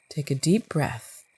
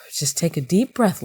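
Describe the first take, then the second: First: Self-calming. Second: Said in the usual way. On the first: Real, not acted. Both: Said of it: "I think I need to calm down".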